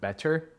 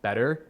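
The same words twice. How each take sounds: First: The middle t is pronounced as a crisp t. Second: The middle t is softened into a quick tap. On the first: This is the technically correct form. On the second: This is how it is said in everyday conversation.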